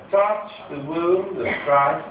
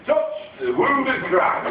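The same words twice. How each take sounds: First: Slow, lightly plummy public school English; public school posh. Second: Higher, slow northern English Christ; northern English accent. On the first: Christ offering his wound, slow light public school posh. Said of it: "from quite a public school". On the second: Christ from the north of England inviting a touch, slow northern English accent. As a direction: give it a broad northern English lilt, slowly. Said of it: "he was from the north of England". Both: Retold or imitated.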